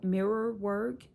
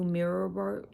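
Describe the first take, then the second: First: "mirror work" drawn out and slowed, rising; slow stress on mirror work. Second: Said in the usual way. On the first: Shown as a demonstration. Repeating "mirror work" to viewers, slowly stressed.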